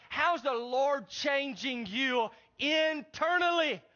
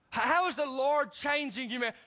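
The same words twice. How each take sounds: First: How's the Lord changing you internally asked slowly, each word leaned on; slow emphatic re-ask. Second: Said in the usual way. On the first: Shown as a demonstration. Pastor pressing a churchgoer on his real change, slow and emphatic. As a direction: press the question home, slower. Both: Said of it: "No, no, that's not the question".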